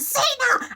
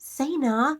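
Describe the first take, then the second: First: The name is screamed loudly. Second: The name is said in a calm voice.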